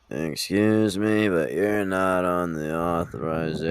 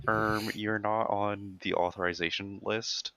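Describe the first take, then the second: First: Put-on slow, bored old nurse; lightly voiced jaded old nurse; uncaring old nurse. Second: Slow, drawn-out nerdy receptionist; a hint of a nerdy clerk; nerd voice. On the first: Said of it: "my impression of an old nurse who does not care". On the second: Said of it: "they were like".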